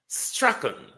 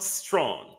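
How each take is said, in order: First: The name is said in the Strachan form. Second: The name is said in the Strawn form. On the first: The speaker calls it right. "That's the pronunciation" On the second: The speaker calls it wrong. "not Strawn"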